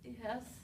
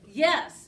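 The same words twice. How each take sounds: First: The yes sounds hesitant and unsure. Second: The yes sounds firm and confident.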